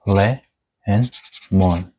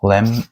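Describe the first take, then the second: First: "le" and "mon" said apart, break before the M; split into syllables. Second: "lemon" broken after the M, first syllable closed as "lem"; alternative syllable split. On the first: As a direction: sound out "le", pause, then "mon". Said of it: "it's a two syllable of le and mon". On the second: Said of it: "depending on the area you live". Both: Shown as a demonstration.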